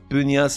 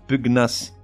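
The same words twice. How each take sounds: First: The 'gn' sounds like 'ny'. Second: The 'gn' has a hard 'g' then 'n'. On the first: The speaker calls it wrong. "On ne dit pas" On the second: The speaker calls it right.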